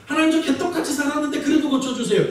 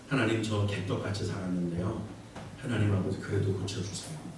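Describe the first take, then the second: First: Higher, brazen mock plea; shameless prayer. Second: Much lower and softer, ashamed mumble; sheepish low prayer. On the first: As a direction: ask boldly with no shame. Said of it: "이건, 어, 벼룩도 낯짝이 있죠". (뻔뻔하게 높은 목소리로 하는 기도) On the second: Retold or imitated. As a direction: pray as if ashamed to ask. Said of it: "이렇게 말하는 게 기도에 힘이 있을까요?". (훨씬 낮고 작게 부끄러워하며 하는 기도)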